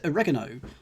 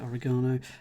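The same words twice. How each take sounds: First: Oregano is pronounced with an American accent. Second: Oregano is pronounced with a local, non-American accent. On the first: It is said so that the audience can understand. "I am, of course, pronouncing it the uh, the American way for you lot at home" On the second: It is how people say it where the speaker lives. "Oregano is how we would say it here"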